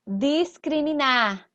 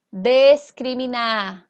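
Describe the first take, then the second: First: Discriminar spoken slowly with a clear "dis", diskriminar; syllable by syllable, "dis-cri-mi-nar" with an open i; slow careful reading. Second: Discriminar spoken slowly with a reduced "des", deskriminar; slow careful reading. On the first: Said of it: "teacher reads word aloud slowly". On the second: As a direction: drag out discriminar, first syllable as "des". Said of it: "teacher repeats word, other vowel". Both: Shown as a demonstration.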